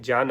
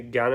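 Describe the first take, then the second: First: ज्ञान said as "jyan"; corrected pronunciation. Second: Said in the usual way. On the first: Shown as a demonstration. Teacher setting the right form against gyan, ज्ञान as "jyan". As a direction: start ज्ञान with j rather than g. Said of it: "ज्ञान होता है". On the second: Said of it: "ज्ञान नहीं".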